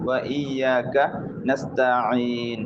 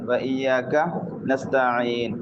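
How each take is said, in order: The two takes are said the same way.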